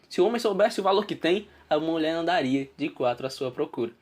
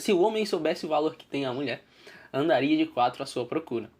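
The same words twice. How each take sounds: First: There is a pause after the word tem. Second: There is a pause after the word mulher.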